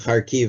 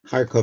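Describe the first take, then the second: First: The name is said the Ukrainian way. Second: The name is said the Russian way. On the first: "the way the Ukrainians pronounce it" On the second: "the way the Russians pronounce it"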